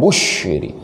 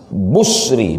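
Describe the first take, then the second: First: The middle consonant is an sh sound. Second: The middle consonant is a plain s sound. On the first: The speaker calls it wrong. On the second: The speaker calls it right. "dibaca dengan sin muhmalah"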